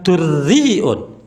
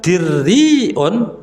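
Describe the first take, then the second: First: U after d, with a glottal stop. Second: I after d, with a glottal stop. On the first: "mendomahkannya lalu diakhiri huruf hamzah" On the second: "dengan mengkasrohkan huruf dal ... ditutup dengan huruf hamzah"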